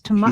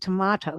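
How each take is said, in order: First: The second T sound is left out. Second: The second T sound is clearly pronounced. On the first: "He says tomato. ... he leaves off the second T" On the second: "He doesn't say it tomato"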